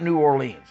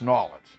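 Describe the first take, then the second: First: The name is said in full, New Or-leans. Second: The name is run together, sounding like Nawlins. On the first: This is how outsiders say the name. The speaker calls it wrong. "it's not New Orleans" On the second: This is how the locals say the name. The speaker calls it right. "people down there go New Orleans. ... N A W L I N S"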